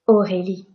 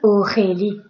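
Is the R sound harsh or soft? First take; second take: soft; harsh. First: The R is soft with a light vibration. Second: The R is exaggerated and harsh in the throat. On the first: The speaker calls it right. "it should be quite soft" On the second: The speaker calls it wrong. "I am not saying Aurélie. If I say that, I am hurting my throat"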